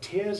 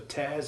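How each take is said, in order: First: The vowel rhymes with 'here'. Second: The vowel rhymes with 'there'. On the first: Water coming from the eyes. "When it means the water that comes from your eyes, the word tears is pronounced with the long E one R sound" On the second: Rips in clothing. "when it refers to tears in the sense of rips in clothes, it has the long A one single sound"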